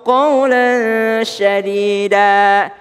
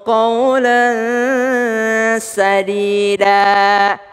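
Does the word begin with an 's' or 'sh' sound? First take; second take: sh; s. First: The word starts with a sh sound. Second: The word starts with a plain s sound. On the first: Speak words that are harsh. The speaker calls it wrong. "Ada orang salah baca" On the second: Speak words that are true. The speaker calls it right. "Pakai es"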